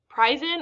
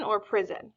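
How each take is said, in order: First: "prison" with a long I, PRY-zon, rising. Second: "prison" with a short I, PRIZ-on. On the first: Teacher quizzing the class with the wrong long vowel. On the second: Teacher quizzing the class with the right short vowel. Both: Shown as a demonstration. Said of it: "is it prison".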